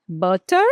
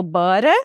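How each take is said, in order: First: "Butter" with a crisp T; firm T; clear T butter. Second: "butter" with a flapped T, "burer". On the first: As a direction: hit the T in "Butter". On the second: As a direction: tap the T in "butter". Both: Shown as a demonstration. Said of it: "Como é que eu posso falar?".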